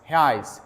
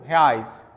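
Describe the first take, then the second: Both takes have the same delivery.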